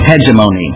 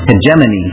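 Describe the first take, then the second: First: The O in the word is long. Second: The O in the word is short. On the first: "with a long O" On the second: "the other one is"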